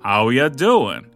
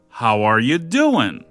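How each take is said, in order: First: The words 'are you' are reduced to 'ya'. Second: The words 'are you' are said in full.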